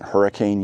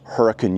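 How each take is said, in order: First: The name is said in an outsider pronunciation. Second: The name is said in the local pronunciation. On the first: This is how visitors might say it. The speaker calls it wrong. "isn't Hurricane, Utah" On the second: This is how residents say it. The speaker calls it right. "kind of like Hurricane, Utah"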